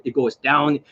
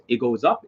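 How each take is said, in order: First: Demonstrating a falling note on "down"; varied intonation. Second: Demonstrating a rising note on "up"; varied intonation. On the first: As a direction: let "down" fall away in pitch. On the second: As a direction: let the voice climb on "up". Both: Shown as a demonstration. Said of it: "I can actually hit various, various different notes".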